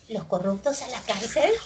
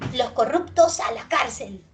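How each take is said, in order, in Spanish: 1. El tono sube al final. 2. El tono baja al final. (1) "ese es ascendente" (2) "Eso es descendente"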